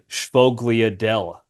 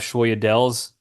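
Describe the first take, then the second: First: Every letter is sounded, including the g and l. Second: The middle sounds like a y, without g or l. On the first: This follows the spelling letter by letter. "if you just phonetically pronounce it" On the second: This is how people commonly say it. "people call them"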